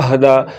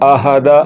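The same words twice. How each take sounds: First: The h closes the first syllable without a vowel. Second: The h is followed by its own vowel. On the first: The speaker calls it right. "ہا ساکن ہے ... حمزہ کو ہا کے ساتھ ملاتے ہوئے پڑھنا ہے" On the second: The speaker calls it wrong. "یہ ہا متحرک پڑھا جا رہا ہے ... اور یہ غلط ہے"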